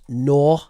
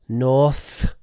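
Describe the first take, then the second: First: The final consonant sound is dropped. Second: The final consonant sound is pronounced. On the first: The speaker calls it wrong. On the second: The speaker calls it right.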